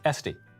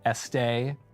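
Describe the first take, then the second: First: The name is said the plain American way. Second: The name is said with a French-style ending. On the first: The speaker calls it right. "but it is Esty" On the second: The speaker calls it wrong. "I was tempted to pronounce it Estee, as in loud"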